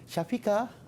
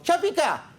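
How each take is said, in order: First: The name is said softly and sweetly. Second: The name is shouted loudly and harshly.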